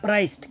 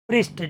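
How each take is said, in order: First: The vowel sounds like 'eye'. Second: The vowel sounds like 'ee'. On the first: The speaker calls it wrong. "ઘણા પ્રાઇસ્ટ" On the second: The speaker calls it right. "સાચું pronunciation એ છે"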